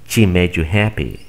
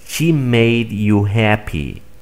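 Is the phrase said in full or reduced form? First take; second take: reduced; full. First: The words are reduced and run together. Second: Every word is pronounced fully and separately. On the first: "Aplicando esta estrategia" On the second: "Primero voy a pronunciar de manera formal"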